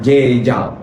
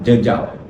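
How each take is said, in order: First: The vowel is not a schwa sound. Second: The vowel is a schwa sound. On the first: The speaker calls it wrong. "bukan jejal" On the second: The speaker calls it right. "pastikan dia bunyi huruf E, suaf"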